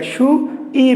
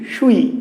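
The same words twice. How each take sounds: First: "সু … ই" higher, slow, vowels apart; wrong split reading. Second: "সুই" as a single gliding syllable; vowels run together. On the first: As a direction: break "সু ই" into two slow syllables. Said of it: "না সু ই না". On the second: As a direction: slide উ straight into ই in "সুই". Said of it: "একই সাথে উচ্চারণ করতে হচ্ছে". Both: Shown as a demonstration.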